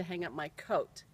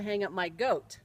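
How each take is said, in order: First: Said in the usual way. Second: "goat" with g in place of c; mother's Finnish mispronunciation. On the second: Retold or imitated. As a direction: say "goat" meaning coat. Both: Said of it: "when she meant to say".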